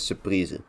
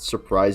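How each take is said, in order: First: It is said with a Dutch pronunciation. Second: It is said with an English pronunciation. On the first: It is the Dutch gift tradition. "but it's surprise" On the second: It is the ordinary English word. "it's not surprise actually as in the word"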